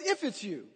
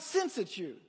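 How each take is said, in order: First: "If" picked out, then falling away; stress on IF. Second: "since" picked out, then falling away; stress on SINCE. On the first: Preacher pointing out Peter's doubt, stress on "If". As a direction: lean on "If" as the doubting word. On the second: Preacher correcting the wording, stress on "since". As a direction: lean on "since" as the contrasting word. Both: Shown as a demonstration.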